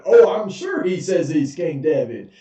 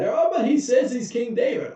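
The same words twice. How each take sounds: First: King scoffing back; sarcastic king. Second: High, eager plea; much higher, earnest servant explaining to the king; pleading courtier. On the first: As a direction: scoff at the servant's claim. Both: Retold or imitated.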